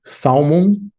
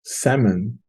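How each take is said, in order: First: "Salmon" with the L sounded, SAL-mon; learner's "Salmon", L fully voiced; L pronounced. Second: "Salmon" said SAM-un, softly; quiet learner's try at "Salmon" without the L; silent L. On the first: Real, not acted. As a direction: say "Salmon" with an audible L before the M. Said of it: "it's common to want to pronounce the L". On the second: Shown as a demonstration. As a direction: drop the L from "Salmon". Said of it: "The L is silent".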